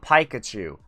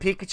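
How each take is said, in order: First: The name is pronounced in a distorted way. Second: The name is pronounced the usual way. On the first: "you want me to really butcher it?" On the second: "Instead of"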